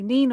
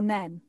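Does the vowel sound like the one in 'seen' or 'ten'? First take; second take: seen; ten. First: The vowel is long, as in 'seen'. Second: The vowel is short, as in 'ten'. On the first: "So it can be Neen or Nen" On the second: "So it can be Neen or Nen"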